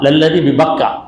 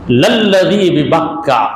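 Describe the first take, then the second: First: Said in the usual way. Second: للذی ببکہ recited slowly, with the doubled ل and ک held; slow Quranic recitation. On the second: Shown as a demonstration. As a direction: chant للذی ببکہ as in Quran reading, each syllable drawn out. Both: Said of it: "Quran,".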